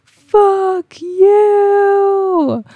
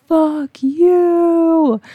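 First: Very high, very loud crying shout; scream to the universe. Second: High, loud mock scream of fury; a wild animal's yelled curse; retold scream. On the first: Retold or imitated. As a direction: scream it skyward with everything. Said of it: "I was just screaming to the universe". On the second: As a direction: let the rage rip upward. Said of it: "was screaming".

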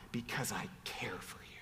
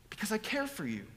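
First: Hushed, voiceless whisper. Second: Said in the usual way. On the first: Acted. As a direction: whisper it tenderly. Whispered then repeated aloud.

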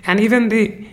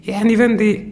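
The two takes are said the same way.

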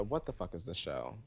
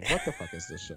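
First: Said in the usual way. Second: Pitched way up, baffled; mock baffled squeal. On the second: Shown as a demonstration. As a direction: repeat it high and incredulous. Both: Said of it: "Good question".

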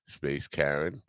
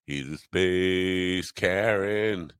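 First: Said in the usual way. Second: Drawn out, slow punchline; slow emphatic delivery. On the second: Shown as a demonstration. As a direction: land the joke slowly. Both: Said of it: "Bet you weren't ready for that".

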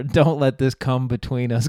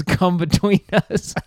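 First: Said in the usual way. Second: "between" lifted higher and slowed; milk the word "between"; pun leaned on. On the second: Retold or imitated. Repeating the pun to his girlfriend, "between" drawn out and higher.

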